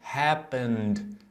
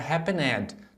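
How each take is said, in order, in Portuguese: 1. O final é só um som de d. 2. O final é uma sílaba separada com vogal. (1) "a gente não pronuncia a vogal lá do ed, a gente vai pronunciar o N, happen, e como se acrescentássemos só o D" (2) "não é happened"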